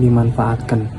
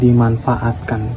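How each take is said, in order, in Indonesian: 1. Suku kata terakhir diucapkan dengan vokal e. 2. Suku kata terakhir diucapkan dengan vokal a. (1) "bukan dimanfaatkan" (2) "seharusnya menggunakan artikulasi atau uh, pembacaan dimanfaatkan"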